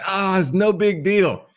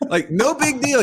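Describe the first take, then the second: First: Unbothered dad. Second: Incredulous echo. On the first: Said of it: "And he's like". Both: Retold or imitated.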